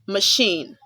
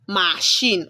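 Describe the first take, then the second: First: The first vowel is a weak schwa sound. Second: The first vowel is a full, clear vowel. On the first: The speaker calls it right. "Letter A makes the schwa sound uh" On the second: The speaker calls it wrong. "you don't say"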